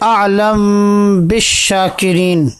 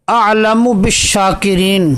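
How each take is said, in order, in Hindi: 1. "म" बिना स्वर वाला (साकिन) है और "ब" से पहले छुपा हुआ (इख़्फ़ा) है। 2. "म" पर स्वर है, और वह "ब" से पहले है।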